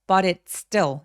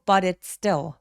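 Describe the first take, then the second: First: The words run together with a soft flapped t. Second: The words run together with a soft flapped t.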